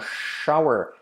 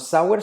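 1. La palabra empieza con el sonido sh. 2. La palabra empieza con el sonido s simple. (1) "sino shower. Letra clave CH" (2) "No sour"

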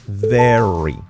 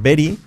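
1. Empieza con un sonido v sonoro, que vibra. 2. Empieza con un sonido tipo b, oclusivo. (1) "es very, con la V, como una F, pero activando las cuerdas vocales" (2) "cuidado que no es very"

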